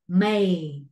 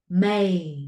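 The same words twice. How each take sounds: First: The vowel glides like ay. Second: The same.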